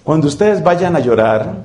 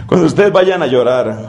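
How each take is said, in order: First: Said in the usual way. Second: Breathy laugh through the words, quick. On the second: Real, not acted. Preacher laughing at his own joke, repeating the line. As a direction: repeat it while laughing at yourself.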